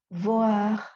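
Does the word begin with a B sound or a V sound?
V sound. The word begins with a vibrating V sound.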